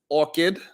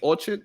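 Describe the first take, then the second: First: The second syllable sounds like 'kid'. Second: The second syllable sounds like 'chard'. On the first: The speaker calls it right. "I'm saying it right now, right?" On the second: The speaker calls it wrong. "Because I was saying orchard, maybe"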